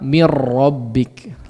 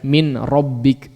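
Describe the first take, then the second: First: The n is absorbed into a doubled r. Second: The n is pronounced clearly before the r. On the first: The speaker calls it right. "Lebih mudah apa? ... Langsung dimasukkan nunnya itu ke huruf ra-nya" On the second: The speaker calls it wrong. "Coba ucapkan dengan izhar nunnya... Rada karagok"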